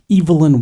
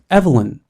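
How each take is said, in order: First: The name is said with a British pronunciation. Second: The name is said with an American pronunciation. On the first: "I prefer the British pronunciation of Evelyn" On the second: "the American pronunciation of Evelyn's name as Evelyn"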